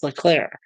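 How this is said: The name is said with French-style sounds. The name is French. "I believe it's in French, so it's Leclerc"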